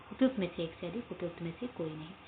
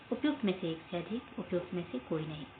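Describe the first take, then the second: No difference in how they are said.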